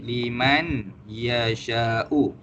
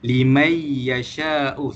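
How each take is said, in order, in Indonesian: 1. Bunyi n terdengar sebelum ya. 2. Bunyi n menyatu sepenuhnya ke dalam ya. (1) "asal je limai yasha'u" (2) "Seolah-olahnya macam tak ada huruf nun langsung dekat situ"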